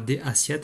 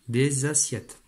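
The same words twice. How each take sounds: First: Des and assiettes are separate, with no z sound. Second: A z sound links des to assiettes. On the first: The speaker calls it wrong. "on ne dit pas des assiettes" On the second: The speaker calls it right. "mais des assiettes. On appelle ça la liaison"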